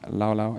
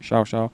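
First: Each syllable begins with an L sound. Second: Each syllable begins with an SH sound. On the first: "it would be in English" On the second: "the Argentinians pronounce it"

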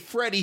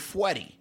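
First: The name is said with a clear R sound. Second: The R is replaced by a W sound. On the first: "when he would say Freddy" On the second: "he would say Fweddy"

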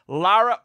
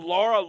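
First: The name is said like Lara. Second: The name is said like Laura. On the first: The speaker calls it right. "Hopefully I said that right" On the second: The speaker calls it wrong. "I've been saying Laura"

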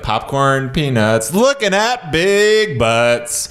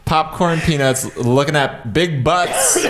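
First: It is said with excited, exclaiming emphasis. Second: It is said flatly, without exclamation.

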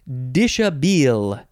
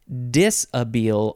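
First: The middle consonant is an SH sound. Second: The middle consonant is a plain S sound. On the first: The speaker calls it wrong. "It's not dish" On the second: The speaker calls it right. "There is an H, but it's not pronounced. It doesn't make it an S-H sound"

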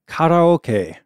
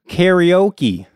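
First: It is said with a Japanese-style pronunciation. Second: It is said with an American English pronunciation.

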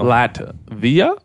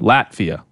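First: The pitch rises at the end like a question. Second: The pitch falls at the end like a statement. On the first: The speaker is unsure and asking. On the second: The speaker states it with confidence.

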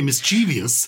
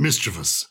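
First: It has four syllables, ending in -vee-ous. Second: It has three syllables, ending in plain -vous. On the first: The speaker calls it wrong. "People say mischievous, thinking incorrectly. There's a second I there" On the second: The speaker calls it right. "it is"

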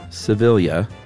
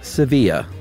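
First: The name is said the Filipino way. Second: The name is said the Spanish way. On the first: The speaker calls it right. "this is the Filipino pronunciation" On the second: The speaker calls it wrong. "not the Spanish"

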